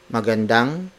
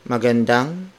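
No difference in how they are said.

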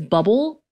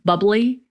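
First: The word ends with an l sound. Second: The word ends with an ee sound. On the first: "in my head, it is bubble" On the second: "it's got that little accent mark, so it's bubbly"

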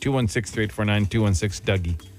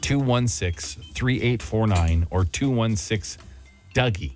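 First: The number is said fast. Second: The number is said slowly.

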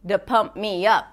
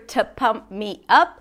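First: The T in 'to' is softened, not clearly heard. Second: The T in 'to' is clearly pronounced. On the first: "you hear the, to pump me up" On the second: "you don't hear a T sound, you don't hear to pump me up"

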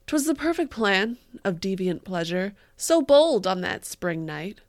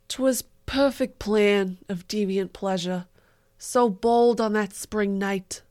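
First: It is read in her regular voice. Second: It is read in a Staten Island accent.

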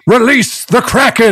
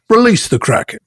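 First: The word Kraken carries the main stress. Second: The word release carries the main stress. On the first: The Kraken is chosen from among several beasts. "Implying that as Zeus, he has several beasts at his disposal" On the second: Releasing is one of many routine orders given about the Kraken. "Emphasizing release"

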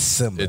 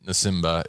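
First: The name begins directly with an s sound. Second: The name begins with an audible n sound. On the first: The speaker calls it right. "It's Simba" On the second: The speaker calls it wrong. "you're not Simba"

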